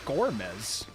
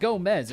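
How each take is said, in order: First: The name is said with an r sound. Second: The name is said without an r sound. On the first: The speaker calls it right. "it's Gormez" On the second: The speaker calls it wrong. "it's not Gomez"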